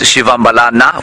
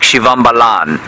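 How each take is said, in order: First: The name ends with a final vowel sound. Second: The name ends on a consonant sound. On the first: The speaker calls it right. "the correct pronunciation is Shivambalana with the A on the end of it" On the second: The speaker calls it wrong. "it might sound like Shivambalan. It isn't"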